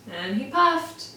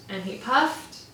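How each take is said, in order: Both takes have the same delivery.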